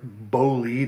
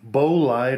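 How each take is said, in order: First: The name is pronounced in a French way. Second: The name is pronounced in an English way.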